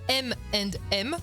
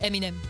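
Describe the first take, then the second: First: The letters are said separately and slowly. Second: The letters are run together quickly, American style. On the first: "ça fait ses initiales M and M" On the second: "dit plus vite à l'américaine"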